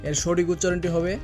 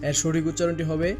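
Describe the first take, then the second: The two takes are said the same way.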